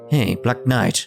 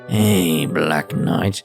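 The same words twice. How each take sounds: First: It is read in a normal speaking voice. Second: It is said in a put-on character voice.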